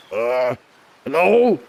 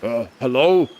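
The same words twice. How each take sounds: First: Gruff, raspy character voice try; first try at a raspy voice; raspy muscular voice. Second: Toned-down rasp, muscular character; second try, lighter rasp; less raspy voice. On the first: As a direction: push a rasp into it. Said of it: "sort of muscular kind of voice, but it's kinda raspy". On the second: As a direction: ease off the rasp a little. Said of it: "Maybe not that raspy". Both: Shown as a demonstration.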